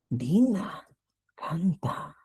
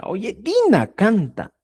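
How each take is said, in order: First: Said in the usual way. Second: "Oye, Dina canta" said slowly with weight on "Dina"; intense, emphatic. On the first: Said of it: "En este caso digo". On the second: Shown as a demonstration. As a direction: lean hard into "Dina canta" to make it vivid. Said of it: "es intensa".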